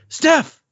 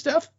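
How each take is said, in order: First: The name is said loudly, with excited energy. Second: The name is said plainly, without extra energy.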